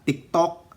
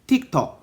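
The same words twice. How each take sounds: First: It is said with a Filipino accent. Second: It is said with a British accent. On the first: "matigas ang dila" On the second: "Pero pag British daw"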